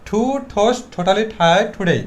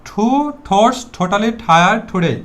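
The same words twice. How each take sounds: The two takes are said the same way.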